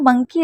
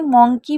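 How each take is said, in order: First: The first vowel is an open 'uh' sound. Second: The first vowel is a rounded 'o' sound. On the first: The speaker calls it right. "लेकिन मंकी right sound होता है" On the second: The speaker calls it wrong. "मोंकी भी पढ़ते हैं बहुत से लोग"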